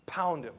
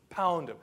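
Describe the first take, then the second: No difference in how they are said.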